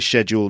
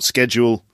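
First: The word is said the British way. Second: The word is said a non-British way. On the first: "that's the British way of doing it" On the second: "not schedule"

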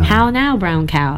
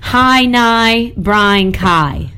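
First: The vowels are said with a standard English accent. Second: The vowels are said with a Northern Irish accent.

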